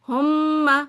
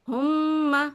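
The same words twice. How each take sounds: First: The m sound is doubled and held. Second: The same.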